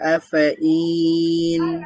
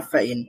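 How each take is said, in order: First: The word is split into two separate parts. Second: The word is said as one joined unit. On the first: This is how it appears in writing. The speaker calls it wrong. "এখানে দেখতে দেখা যাচ্ছে আফ ইন" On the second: This is how it must be pronounced. The speaker calls it right. "কিন্তু উচ্চারণ করতে হবে আফাইন"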